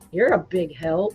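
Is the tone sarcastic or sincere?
sarcastic. It is said mockingly, with a sarcastic tone. The listener is not helpful at all.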